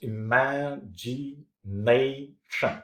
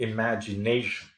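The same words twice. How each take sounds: First: "imagination" stretched out slowly, syllable by syllable; teacher slowly sounding out each syllable of "imagination". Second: Said in the usual way. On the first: Shown as a demonstration. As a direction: break "imagination" into separate slow syllables. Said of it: "look at these capitalized words". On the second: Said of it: "if you take the word imagination".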